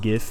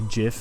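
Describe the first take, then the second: First: It begins with a hard g sound. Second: It begins with a soft j sound. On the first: This is the way the speaker does not say it. "and not GIF" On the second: This is the speaker's own way of saying it. "I say GIF"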